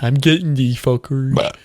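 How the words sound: It is said in a put-on character voice.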